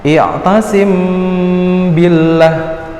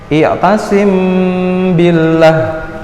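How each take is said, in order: No difference in how they are said.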